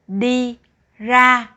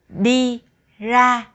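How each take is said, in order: The two takes are said the same way.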